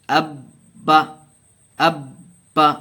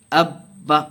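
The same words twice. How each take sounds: First: اب and با said apart with a clear pause between, each hit firmly and louder; slow broken-up syllables. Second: اب با joined as abba with the doubled ب pressed hard and louder; firm tashdeed join. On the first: Teacher showing viewers the pause in tashdeed, slow and separated. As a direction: split اب / با with a stop before each. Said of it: "تھوڑا سا رک کر کے پڑھیں گے". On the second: Teacher giving viewers the joined reading, firm stress on the doubled ب. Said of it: "سختی کے ساتھ پڑھیں گے". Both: Shown as a demonstration.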